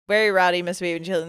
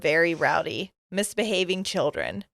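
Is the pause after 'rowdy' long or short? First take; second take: short; long. First: There is a short pause after rowdy. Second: There is a long pause after rowdy.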